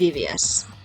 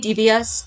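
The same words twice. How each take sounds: First: The word sounds close to 'deviates'. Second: The word is said the way it is spelled. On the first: This is how the speaker normally says it. "But I say devious, so deviates" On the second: This is how some other people say it. "If you say devious, then it wouldn't work"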